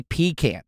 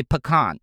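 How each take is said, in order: First: "pecan" as PEE-can, stress on the first syllable. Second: "pecan" as pih-KAHN, stress on the second syllable. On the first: Host showing the other way to say "pecan". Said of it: "Some people say pecan". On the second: Host showing one way to say "pecan". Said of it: "some people say pecan". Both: Shown as a demonstration.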